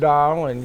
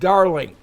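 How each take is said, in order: First: It drops the final g, New Orleans-style. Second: It ends in a hard k, Gabor-style.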